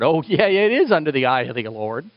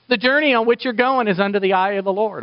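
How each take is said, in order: First: Wry echo with "is" picked out and stretched; "is" emphasised, as if conceding with irony; wry stress on IS. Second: Higher-pitched mock blessing; imitating a glib priest's send-off; breezy reassurance. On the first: Acted. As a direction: lean knowingly on "is". Preacher's wry echo of the blessing. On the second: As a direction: hand out an easy, assuring blessing. Levite's blessing, then preacher's wry echo.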